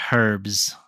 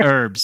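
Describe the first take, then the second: First: "herbs" with the H pronounced; sounded H. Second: "herbs" with the H dropped; silent H. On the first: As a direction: breathe a clear H onto "herbs". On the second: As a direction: say "herbs" as "erbs". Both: Shown as a demonstration. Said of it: "we don't pronounce the H".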